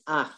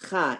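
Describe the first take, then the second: First: The vowel comes before the ch sound. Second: The vowel comes after the ch sound. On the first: The speaker calls it right. "it's ach" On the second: The speaker calls it wrong. "It's not cha"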